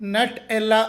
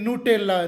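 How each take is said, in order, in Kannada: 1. ಮೊದಲ ಉಚ್ಚಾರಾಂಶ 'nut' ರೀತಿ ಕೇಳಿಸುತ್ತದೆ. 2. ಮೊದಲ ಉಚ್ಚಾರಾಂಶ 'noo' ರೀತಿ ಕೇಳಿಸುತ್ತದೆ. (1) "ಅಧಿಕೃತ ಉಚ್ಚಾರಣೆ ನಟ್ ಎಲ್ಲಾ ಅಲ್ಲ" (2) "ಬದಲಿಗೆ ನೂಟೆಲ್ಲಾ"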